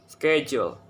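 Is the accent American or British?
American. It is said in an American accent.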